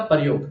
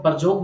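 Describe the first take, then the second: First: Said in the usual way. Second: प्रयोग said as "parjog", with a j for the y; Khortha pronunciation. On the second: Shown as a demonstration. Teacher glossing the Khortha word for students, "parjog" with a j sound. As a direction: say प्रयोग the Khortha way, "par-jog". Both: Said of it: "प्रयोग को यहाँ को जा लिखते हैं खोटा में".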